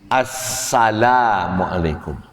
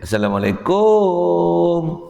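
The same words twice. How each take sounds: First: The final syllable is short. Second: The final syllable is drawn out long. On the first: The speaker calls it right. "Dia bukan assa tapi Assalamualaikum" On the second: The speaker calls it wrong. "kum tu bagi banyak"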